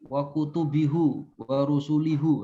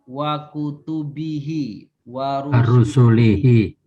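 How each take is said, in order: First: The pronoun endings are pronounced with a u vowel. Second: The pronoun endings are pronounced with an i vowel. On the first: The speaker calls it wrong. "Jangan sampai dibaca" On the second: The speaker calls it right. "itu hihi semua tuh"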